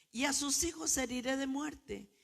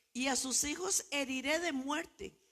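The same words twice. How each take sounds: The two takes are said the same way.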